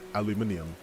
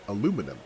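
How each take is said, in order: First: The word is said with five syllables. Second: The word is said with four syllables. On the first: "they say aluminium" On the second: "another word that's fun to say is aluminum"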